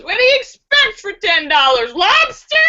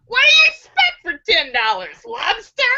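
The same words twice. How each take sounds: First: Mocking hooker. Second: Said in the usual way. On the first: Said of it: "The hooker laughs and says". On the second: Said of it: "I think I like that one".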